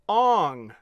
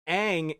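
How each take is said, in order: First: The vowel sounds like the 'o' in 'on'. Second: The vowel sounds like the 'a' in 'cat'. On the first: The speaker calls it wrong. "What the fuck?" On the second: The speaker calls it right. "Two A's next to each other in a name makes the A sound"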